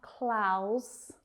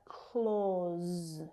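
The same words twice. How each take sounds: First: "clause" mispronounced like "clowse", rhyming with house; vowel as "ow". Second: "clause" as "clawz", long AW and voiced Z; vowel as in door. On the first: Teacher showing learners the mistake, "clause" said with an OW sound. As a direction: stretch "clause" with an OW vowel and rising end. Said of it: "It's not clause". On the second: Teacher correcting the mistake for learners, "clause" with a long AW. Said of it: "same vowel sound as in door". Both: Shown as a demonstration.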